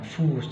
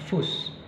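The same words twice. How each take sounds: First: The u vowel is held long. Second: The u vowel is cut short. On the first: The speaker calls it right. "membuat vokal itu vokal panjang" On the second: The speaker calls it wrong. "Jadi bukan fus"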